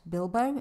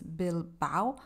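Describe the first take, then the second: First: The name ends in a single 'o' vowel. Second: The name ends in an 'a-o' vowel sequence. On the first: The speaker calls it wrong. "not Bilbo" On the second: The speaker calls it right. "it's Bilbao"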